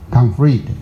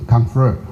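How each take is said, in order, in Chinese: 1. 第二个元音读成短的 i。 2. 第二个元音读起来像 a。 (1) "里面这边念conflict" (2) "美国他们conflict，他们念a"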